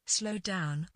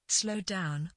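The two takes are said the same way.

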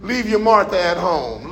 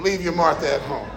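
First: Said in the usual way. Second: Quiet echo. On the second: Shown as a demonstration.

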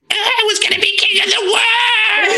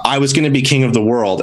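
First: High shrieking cartoon villain cry; anime villain voice. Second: Said in the usual way. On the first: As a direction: scream it like a defeated anime villain. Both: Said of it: "shitty anime villain voice".

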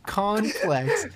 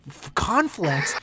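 First: Conflicts said carefully with the right final s; corrected conflicts. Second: Conflicts said slowly with a stumble, like kon-flakt; mispronounced conflicts. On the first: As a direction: fix the word Conflicts deliberately. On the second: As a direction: stumble over the word conflicts. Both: Real, not acted. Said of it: "What the fuck?".

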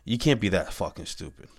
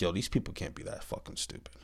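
First: Said through a real laugh; amused, disbelieving laugh on the words. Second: Whispered, disbelieving mutter; a soft unvoiced aside to yourself. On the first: Real, not acted. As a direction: laugh at how dumb it is. Repeats the aside with a laugh. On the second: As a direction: say it under your breath in disbelief. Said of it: "I'm like".

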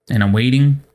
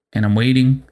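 No difference in how they are said.

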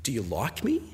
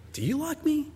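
First: Soft, low, rising question; tentative question. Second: Soft, very high-pitched disbelief; incredulous question. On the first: Rejected suitor to his girlfriend, softly doubtful. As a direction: ask it quietly, unsure of the answer. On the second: Rejected suitor questioning his girlfriend, incredulous. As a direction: ask it high and soft, stressing YOU. Suitor doubting her love, second take. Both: Acted.

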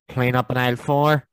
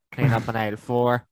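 First: Slow, loud tannoy call; supermarket announcement. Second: Supermarket announcement. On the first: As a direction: call it over the store speakers. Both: Pretend. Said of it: "the Tannoy in Tesco's".

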